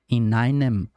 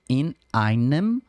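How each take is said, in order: First: The two words run together without a break. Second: A glottal catch separates the two words. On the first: The speaker calls it wrong. "normalmente a gente vai emendar, né ... a pessoa vai querer dizer in einem, mas não é" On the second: The speaker calls it right. "deve ser parada, né, não emendada ... a ser dita como in einem"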